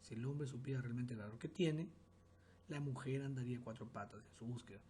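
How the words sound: There is a pause after 'tiene'.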